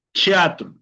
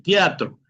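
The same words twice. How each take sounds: First: "teatro" opening on ch, chiatru, pitched up; Portuguese pronunciation. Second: Said in the usual way. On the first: Shown as a demonstration. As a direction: say "teatro" as chi-atru. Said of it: "En portugués se pronunciaría". ("teatro" a la portuguesa, con ch inicial) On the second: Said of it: "tenemos la".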